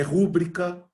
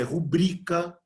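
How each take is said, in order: First: "rúbrica" stressed on the first syllable RÚ. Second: "rubrica" stressed on the middle syllable BRI. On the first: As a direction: say "rúbrica" as RÚ-bri-ca. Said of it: "não é rúbrica". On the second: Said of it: "que a pronúncia é rubrica". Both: Shown as a demonstration.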